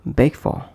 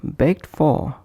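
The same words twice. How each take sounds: First: "beg for" with the d of begged left out; linked, d dropped. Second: "begged for" with the final stop sounded; full form. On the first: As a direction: run g straight into f in "beg for". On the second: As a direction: sound the ending of "begged" before f. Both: Shown as a demonstration. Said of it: "is pronounced as".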